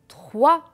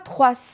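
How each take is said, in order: First: The final S is not pronounced. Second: The final S is pronounced aloud. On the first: The speaker calls it right. "le S ne se prononce pas" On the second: The speaker calls it wrong. "Je ne dis pas trois. C'est faux"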